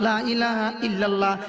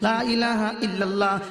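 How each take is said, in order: The two takes are said the same way.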